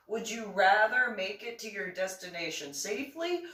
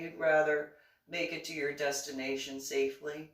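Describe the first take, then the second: First: Raised rhetorical question. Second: Said in the usual way. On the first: Real, not acted.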